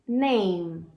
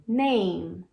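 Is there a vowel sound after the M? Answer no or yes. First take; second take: no; no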